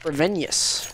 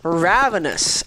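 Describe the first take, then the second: First: The first syllable sounds like 'rev'. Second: The first syllable sounds like 'rav'. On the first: The speaker calls it wrong. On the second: The speaker calls it right.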